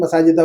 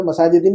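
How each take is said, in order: First: मसाजिदा ending in -a, corrected and low. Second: मसाजिदिन with the wrong -in ending. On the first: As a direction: say मसाजिदा with a final -a, as the right form. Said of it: "मसाजिदा हो जाएगा". (मसाजिदा सही -आ अंत के साथ) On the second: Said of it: "मसाजिदिन नहीं". (मसाजिदिन गलत -इन अंत के साथ) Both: Shown as a demonstration.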